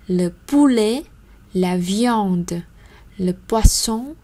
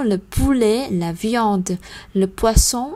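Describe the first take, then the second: First: The words are read at a slower pace. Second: The words are read at a faster pace.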